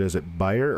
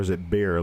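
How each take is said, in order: First: The name sounds like the word buyer. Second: The name sounds like the aspirin brand.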